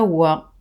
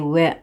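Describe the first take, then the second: First: The vowel is cut short. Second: The vowel is naturally lengthened. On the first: The speaker calls it wrong. "C'est pas wa" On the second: The speaker calls it right. "avec un allongement naturel"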